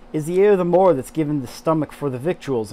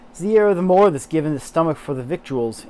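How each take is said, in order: First: Yorkshire read from spelling again; attempted Yorkshire accent. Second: Louder Yorkshire lilt as spelled on page; Yorkshire read from spelling; attempted Yorkshire accent. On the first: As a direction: reread Yorkshire line, louder. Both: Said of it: "I'm terrible at accents".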